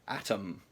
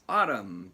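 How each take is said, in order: First: It sounds like the word atom. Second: It sounds like the word autumn. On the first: The speaker calls it wrong. "I would have said Atom" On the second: The speaker calls it right. "but it's Autumn"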